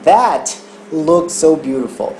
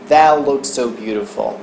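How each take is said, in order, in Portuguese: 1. O T é liberado, com uma pausa depois de 'that'. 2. O T é sustentado e ligado direto em 'looks'. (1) "se eu fosse falar That looks so beautiful, eu tenho que respirar depois do that" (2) "eu já vou falar de uma vez that look"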